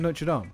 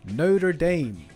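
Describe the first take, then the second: First: It is said in a non-American accent. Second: It is said in an American accent.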